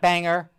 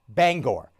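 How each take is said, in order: First: The last syllable is a reduced 'ger' sound. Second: The last syllable is a full 'gore' sound. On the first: The speaker calls it wrong. "not Banger" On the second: The speaker calls it right. "You pronounced the name Bangor"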